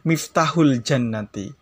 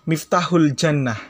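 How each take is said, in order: First: The last word ends with a final vowel. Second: The last word ends without a final vowel. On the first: Every vowel mark is read out. "kalau dibaca harokat semuanya" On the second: The reader pauses at the end of the phrase. "itu kalau diwakafkan"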